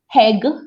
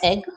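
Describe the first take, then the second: First: The word begins with an added h sound. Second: The word begins directly with the vowel. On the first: "some people say heg instead of egg" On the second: "instead of egg"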